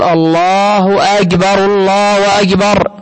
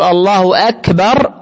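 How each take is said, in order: First: "الله أكبر" said very slowly with a drawn-out, distorted "الله"; wrong elongation. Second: "الله أكبر" said slowly and cleanly, clear "أكبر"; correct pronunciation. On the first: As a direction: stretch "الله أكبر" slowly the wrong way, as a bad muezzin does. (نطق خاطئ ممطوط بطيء لـ"الله أكبر") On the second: (نطق صحيح واضح لـ"الله أكبر") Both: Shown as a demonstration. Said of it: "بدل ما يقول".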